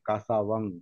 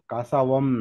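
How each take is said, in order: First: The word ends with a nasal ng sound. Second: The word ends with a closed m sound. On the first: The speaker calls it right. "अनुनासिक म्हणजे नाकातून उच्चार आहे त्याचा" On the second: The speaker calls it wrong. "पालीमध्ये मकारांती उच्चार नसतो. कासावम नाही"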